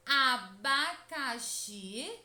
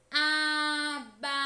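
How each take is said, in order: First: Said in the usual way. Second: "Abacaxi" called out loud, every syllable drawn out, XI held longest; "Abacaxi" in a loud sustained call, lingering on XI; calling someone slowly. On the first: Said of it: "basta pronunciar lentamente esta palavra". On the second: Shown as a demonstration. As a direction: slowly call "Abacaxi" as to someone far away, stretching the final XI. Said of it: "como se estivéssemos chamando alguém".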